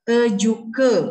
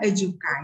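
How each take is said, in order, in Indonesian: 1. Kata ini berakhir dengan bunyi vokal 'e'. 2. Kata ini berakhir dengan bunyi vokal 'a'. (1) "huruf A di akhir itu dibaca E" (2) "bukan ejuka"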